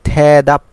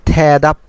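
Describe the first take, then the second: No difference in how they are said.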